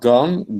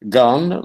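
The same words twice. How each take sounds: First: The vowel does not rhyme with 'alone'. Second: The vowel rhymes with 'alone'. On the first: The speaker calls it wrong. "but not gone" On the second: The speaker calls it right. "gone alone, in order to uh, rhyme with alone"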